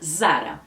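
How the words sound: It starts with a clear buzzing Z sound. This is how Brazilians say it. "No Brasil a gente fala com a letra Z, né, marcada"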